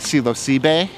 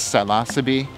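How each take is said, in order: First: It is said with a Mexican Spanish-style pronunciation. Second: It is said with an American English-style pronunciation. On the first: "if you go to Mexico, they will say Psilocybe" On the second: "In the United States, Psilocybe"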